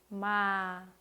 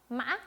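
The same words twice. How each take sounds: First: The pitch falls lightly and slowly to the end. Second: The pitch wavers like a bleating goat. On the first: "아주 가볍게, 천천히, 그리고 끝까지 내려주시면 됩니다" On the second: "매 하는 염소 소리처럼 내주시면 됩니다"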